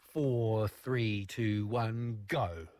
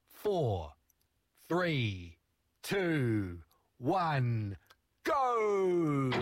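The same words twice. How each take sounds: First: The countdown is said quickly. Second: The countdown is said more slowly.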